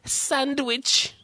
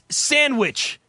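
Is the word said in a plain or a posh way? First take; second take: posh; plain. First: The word is said in an exaggerated posh way. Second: The word is said in a plain, ordinary way. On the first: The speaker calls it wrong. "like you're going to be invited to the royal wedding" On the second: The speaker calls it right. "It's sandwich, you fuck"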